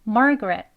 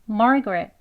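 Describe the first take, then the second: No difference in how they are said.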